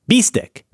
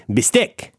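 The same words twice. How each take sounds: First: "Bistec" said BEE-stec, high on the first syllable; first-syllable stress. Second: Said in the usual way. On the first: Shown as a demonstration. Host testing the rule, first-syllable stress on "Bistec". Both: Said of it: "emphasis on the first syllable".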